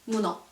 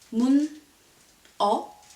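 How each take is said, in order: First: The final consonant carries over into the next syllable. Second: The syllables are said apart, the final consonant unlinked. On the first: "when you pronounce it as one word" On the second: "imagine that you have this word"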